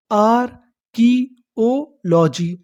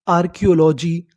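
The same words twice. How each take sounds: First: archaeology drawn out slowly as आर-की-ओ-लॉजी; syllable by syllable. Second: Said in the usual way. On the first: Shown as a demonstration. Teacher building the full word for learners, slow syllable by syllable. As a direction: separate the parts of archaeology with pauses. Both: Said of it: "हमारी पूरी meaning क्या बनी".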